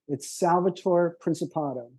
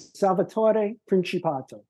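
First: The name is pronounced with American English sounds. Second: The name is pronounced with Italian sounds. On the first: "In plain American English" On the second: "I'm saying in Italian"

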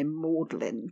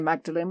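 First: It is said in two syllables as 'Maudlin'. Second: It is said as spelled, three syllables 'Mag-da-len'. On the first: This is the local Oxford way of saying it. "we're going to say Maudlin" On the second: This is the ordinary reading of the name. "we're not going to say Magdalen"

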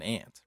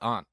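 First: The vowel is a short 'a', like 'ant'. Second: The vowel is a broad 'ah' sound. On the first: The U in the spelling is ignored. The speaker calls it wrong. "You're completely ignoring the U in this word" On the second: The U in the spelling is pronounced. The speaker calls it right. "It just makes more sense for it to be called aunt"

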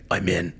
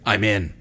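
First: It is said in a deep, gravelly voice. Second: It is said in a normal voice.

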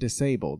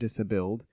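First: It is said as the ordinary word disabled. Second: It is said like dis-billed, stressing bill. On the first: The speaker calls it right. "That's the right word" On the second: A duck whose bill was taken off. The speaker calls it wrong.

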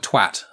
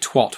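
First: The word is said with a British pronunciation. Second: The word is said with an American pronunciation. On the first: The speaker calls it right. "the word twat" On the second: The speaker calls it wrong. "Americans say twat"

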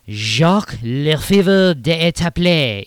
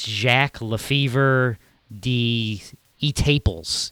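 First: The name is given a French-style pronunciation. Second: The name is given an English-style pronunciation. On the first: "I have no idea if I said that man's name correct or not" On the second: "if you want to say it in English"

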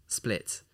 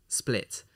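No difference in how they are said.

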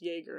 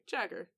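First: The name begins with a Y sound. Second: The name begins with a J sound. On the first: The speaker calls it right. "that J's a Y" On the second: The speaker calls it wrong. "I probably pronounced that like Jagger when I was young"

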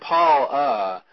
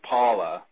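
First: The first vowel is long, as in 'Paul'. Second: The first vowel is short, as in 'Polla'. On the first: "when I say Paula, I'm saying Paula" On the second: "it sounds like he's saying Paul, P-O-L-L-A, like Paula"

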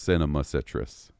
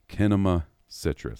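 First: The first word begins with an S sound. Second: The first word begins with a K sound. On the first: The speaker calls it wrong. "I've been calling these jokers just Cinema Citrus" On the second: The speaker calls it right. "they straight up pronounced it Kinema Citrus"

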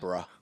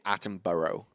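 First: It is said in a non-American accent. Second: It is said in an American accent.

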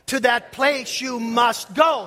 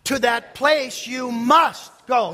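First: The word go carries the stress. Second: The word must carries the stress. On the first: "Say it with the emphasis on go" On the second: "say with the emphasis on must"

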